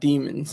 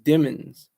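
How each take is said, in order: First: The first syllable sounds like 'dee' in 'demon'. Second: The first syllable sounds like 'dim'. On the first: The speaker calls it wrong. "not demons. I've been saying demons" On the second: The speaker calls it right. "his government name is Jamel Dimmons"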